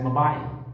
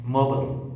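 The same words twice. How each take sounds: First: It is said in a British accent. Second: It is said in an American accent. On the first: "British speaker will pronounce them as" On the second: "But the American speaker will pronounce these words as"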